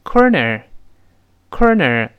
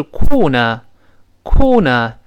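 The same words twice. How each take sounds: First: American "corner" with both r's curled; slow rhotic American demonstration; American pronunciation. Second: British "corner" without r, "kaw-nuh"; non-rhotic British demonstration; British pronunciation. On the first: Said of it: "而美式发音呢". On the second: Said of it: "英式发音是cool呢". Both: Shown as a demonstration.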